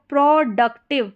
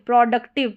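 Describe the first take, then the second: First: productive split as pro, duc, tiv; slower, in parts. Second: Said in the usual way. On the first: Shown as a demonstration. Teacher shows the pro pattern, word split up. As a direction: sound out productive part by part.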